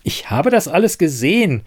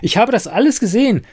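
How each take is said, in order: First: A touch higher, insistent; agitated. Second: Much higher, louder and fast; heated insistence. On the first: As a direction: insist on what you saw. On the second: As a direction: burst out in frustration. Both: Acted. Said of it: "erregte sich Siren".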